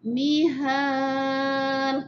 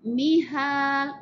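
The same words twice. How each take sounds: First: The last vowel is held for four counts. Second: The last vowel is held for two counts. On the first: "empat gerakan jari, kita baca mihal panjang sikit" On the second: "dua gerakan jari"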